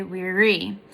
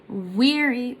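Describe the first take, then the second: First: "weary" leaning on the last syllable, REE; stress on second syllable. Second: "weary" with a long, strong WEA; stress on first syllable. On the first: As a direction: save the weight of "weary" for its end. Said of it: "the opposite of that is unstressed". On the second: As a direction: hit the first syllable of "weary", release the second. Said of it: "the first one is stressed". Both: Shown as a demonstration.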